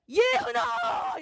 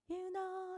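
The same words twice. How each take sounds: First: The name is called out loudly and strongly. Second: The name is called softly and plainly.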